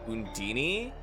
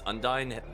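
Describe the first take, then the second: First: The name ends like Houdini. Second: The name does not end like Houdini. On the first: The speaker calls it wrong. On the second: The speaker calls it right.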